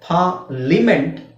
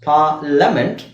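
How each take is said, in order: First: The middle syllable is said as 'lee'. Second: The middle syllable is said as 'luh'. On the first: "ಲೀ ಅಂತ ಹೇಳ್ತಾರೆ" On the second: "ಇದನ್ನ ಲ ಅಂತ ಹೇಳ್ತಾರೆ"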